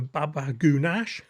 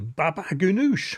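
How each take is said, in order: First: The dish name is said in an altered form. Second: The dish name is said in its standard form. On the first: The speaker calls it wrong. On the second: The speaker calls it right.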